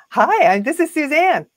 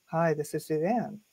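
First: High, loud phone-sales hello; smiling sales greeting. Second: Low, soft hello without a smile; unsmiling greeting. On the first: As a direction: greet the caller with a big cheesy smile. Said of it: "I got a cheesy smile on my face". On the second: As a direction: take all the smile out of the greeting. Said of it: "I'm just gonna talk like this". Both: Shown as a demonstration.

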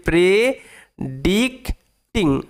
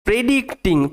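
First: "predicting" very slowly as pre... dic... ting; broken into syllables. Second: Said in the usual way. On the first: Shown as a demonstration. Teacher showing pupils how to break up "predicting", syllable by syllable. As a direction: split "predicting" into three drawn-out syllables. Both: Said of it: "দেখো কিভাবে ভাঙবে".

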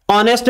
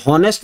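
First: ऑनेस्ट said with no h sound, opening straight on the vowel; silent h. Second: हॉनेस्ट with a breathy h added at the start; wrong h sound. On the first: Teacher shows students the silent h, ऑनेस्ट without h. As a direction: drop the h in ऑनेस्ट, start on the open O. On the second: Teacher shows students the wrong version, हॉनेस्ट with h. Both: Shown as a demonstration. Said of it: "हॉनेस्ट नहीं होता".

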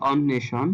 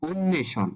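First: "অন্বেষণ" with open অ first; ভুল উচ্চারণ. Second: "অন্বেষণ" with a higher, closed ও first; সঠিক উচ্চারণ. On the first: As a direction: begin "অন্বেষণ" on aw, not o. ("অন্বেষণ"-এর শুরুতে খোলা অ) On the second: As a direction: lift "অন্বেষণ", starting on rounded o. ("অন্বেষণ"-এর শুরুতে ও ধ্বনি) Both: Shown as a demonstration. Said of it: "এটাকে আমরা বলতে হবে".

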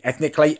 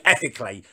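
First: "ethnically" said as a fumbled mix-up for ethically; slip of the tongue. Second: Said in the usual way. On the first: Shown as a demonstration. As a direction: stumble into "ethnically" by mistake. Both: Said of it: "her ethnic, ethically, ethnically".

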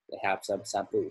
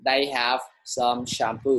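First: Said in the usual way. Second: Slow, clear model sentence. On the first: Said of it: "một câu ví dụ của thầy". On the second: Shown as a demonstration. Teacher reading a model sentence to the class, slow. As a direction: spell it out slowly for the class. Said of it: "thầy sẽ cho các bạn một câu ví dụ".

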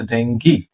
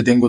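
First: ডেঙ্গি ending in "ghee"; English pronunciation. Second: ডেঙ্গু ending in "goo"; local pronunciation. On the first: Teacher giving the English form, ডেঙ্গি with final gee. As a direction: say ডেঙ্গি as "DENG-gee", hard g. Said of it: "ইংরেজিতে এটাকে বলছে". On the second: Teacher quoting what Bangladesh says, ডেঙ্গু with final gu. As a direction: say ডেঙ্গু as "DENG-gu". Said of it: "বলি যে". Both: Shown as a demonstration.

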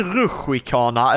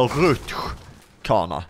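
First: "rutschkana" said with an extra i, as ruschi-kana; "rutschkana" in three parts, ruschi-ka-na. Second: "rutschkana" said as rutsch, then kana, no i between; "rutschkana" slowly, as rutsch-kana; rutschkana without i. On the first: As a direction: slip an i into the middle of "rutschkana". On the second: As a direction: split "rutschkana" after a hissed rutsch. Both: Shown as a demonstration. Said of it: "Säger ni rutschkana eller rutschkana".

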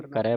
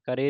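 First: ਕਰੈ ending in an open "ai"; open vowel ending. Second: ਕਰੇ ending in a close "e"; wrong vowel ending. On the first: Teacher gives learners the correction, ਕਰੈ with open "ai". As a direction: say ਕਰੈ with a wide final "eh". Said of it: "ਕਰੈ ਪੜ੍ਹਨਾ". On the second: Teacher shows what to avoid, ਕਰੇ with close "e". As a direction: say ਕਰੇ with a narrow final "ay". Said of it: "ਕਰੇ ਨਹੀਂ ਪੜ੍ਹਨਾ". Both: Shown as a demonstration.

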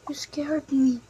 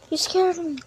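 First: Hushed whispered repeat. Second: Said in the usual way. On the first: Acted. Startled sibling whispering back, hushed whisper. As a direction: breathe it out as a whisper.

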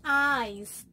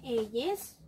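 First: EYES said as "aiz", one drawn-out syllable; correct English pronunciation. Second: EYES read letter by letter as in Spanish, "e-yes"; read as spelled. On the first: Teacher shows children how the word is pronounced, EYES said "aiz". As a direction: model EYES in English, sounding like "ice" with a long vowel. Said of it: "su pronunciación es eyes". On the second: Teacher shows children the spelling of the word, EYES read as spelled "e-yes". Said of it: "Se escribe eyes". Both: Shown as a demonstration.

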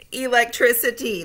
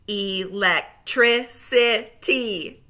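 First: Said in the usual way. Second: Slow, split into syllables; Electricity said slowly, each syllable apart; segmented syllables. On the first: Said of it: "blend them all back together". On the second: Shown as a demonstration. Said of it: "say the syllables in segments".

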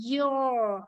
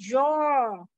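First: "Your" starting from a smooth "ee"; corrected Y glide. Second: "your" said like "zhor"; wrong buzzed onset. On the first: Teacher correcting the class, long gliding "Your". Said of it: "Bây giờ chúng ta sẽ phải đọc lại". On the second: Teacher asking who misreads it, buzzed "your". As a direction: start "your" with a buzz. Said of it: "Mọi người có đọc là your không". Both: Shown as a demonstration.

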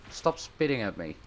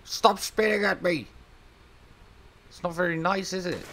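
First: Said in the usual way. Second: High, mock-offended telling off; high scolding. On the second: Real, not acted. Gamer scolding the spitting creature, high mock-offended.

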